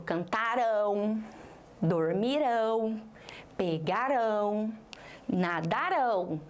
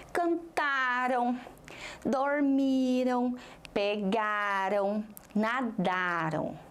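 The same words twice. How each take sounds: First: "cantarão, dormirão, pegarão, nadarão" said slowly, landing on the final RÃO; stress on final syllable. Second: "cantaram, dormiram, pegaram, nadaram" drawn out slowly, leaning on TA, MI, GA, DA; stress before last syllable. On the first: Teacher reading future-tense verbs to class, last syllable stressed. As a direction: stretch each word into a strong ending: cantaRÃO, dormiRÃO, pegaRÃO, nadaRÃO. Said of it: "Agora, vou para o futuro". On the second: Teacher reading past-tense verbs to class, penultimate syllable stressed. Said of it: "a sílaba forte sempre foi".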